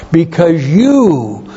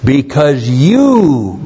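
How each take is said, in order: First: "you" pitched higher and slower, pressed home; emphatic YOU, higher. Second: YOU slow and weighty, landing on "you"; emphatic you. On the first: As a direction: lift "you" up high and stretch it. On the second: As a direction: lean hard on "you", drawn out slowly. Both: Shown as a demonstration. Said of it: "to make this a very emphatic statement".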